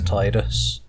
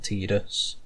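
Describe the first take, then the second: First: The first syllable sounds like the word tide. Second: The first syllable does not sound like tide. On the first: "I am another person who always pronounced it as Tidus" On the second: "not Tidus"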